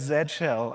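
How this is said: The letter name is said the British way. The speaker calls it wrong. "the rest of the world would pronounce it as Z shell"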